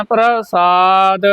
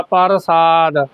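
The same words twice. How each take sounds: First: ਪ੍ਰਸਾਦ as "pra-saad", long second syllable; correct subscript r. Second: ਪ੍ਰਸਾਦ as "par-saad", with a full r; full-r misreading. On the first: Teacher modelling the spelling for learners, careful pronunciation. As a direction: glide p into r in ਪ੍ਰਸਾਦ. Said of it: "ਇਹਨੂੰ ਬੋਲਣਾ". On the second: Teacher explaining the other spelling, full-r pronunciation. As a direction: say ਪ੍ਰਸਾਦ falling, r closing the first syllable. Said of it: "ਇੱਕ ਪੱਪਾ ਰਾਰਾ ਪੂਰਾ ਹੁੰਦਾ". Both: Shown as a demonstration.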